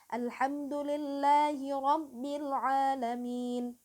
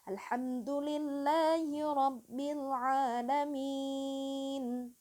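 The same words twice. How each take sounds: First: The last long vowel is held two beats. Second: The last long vowel is held six beats.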